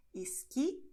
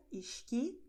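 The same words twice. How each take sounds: First: Esqui with a plain hissing S, iski; São Paulo pronunciation. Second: Esqui with the S said as sh, iʃki; Rio pronunciation. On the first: Teacher models her own São Paulo accent: esqui with S. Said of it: "nós pronunciamos como no resto do Brasil". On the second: Teacher shows the Rio de Janeiro accent: esqui as iʃki. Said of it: "É como as pessoas no Rio de Janeiro pronunciam". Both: Shown as a demonstration.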